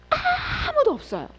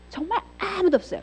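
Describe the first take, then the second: First: Tearful cry. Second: Said in the usual way. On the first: Real, not acted. Emotional peak of sermon.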